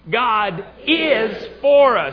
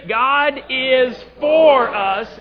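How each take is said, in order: First: The stress falls on the word 'is'. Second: The stress falls on the word 'for'. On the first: "This time is" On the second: "This time, four"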